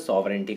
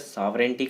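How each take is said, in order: First: It is said with a British accent. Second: It is said with an American accent. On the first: "British के अंदर इसे सॉवरेंटी कहा जाता है" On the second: "American में इसे सॉवरेंटी कहा जाता है"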